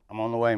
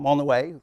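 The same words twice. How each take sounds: First: It is said in a flat, grumpy monotone. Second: It is said in a bright, cheerful tone. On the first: The caller seems unfriendly and untrustworthy. The speaker calls it wrong. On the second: The caller sounds reassuring and friendly. The speaker calls it right.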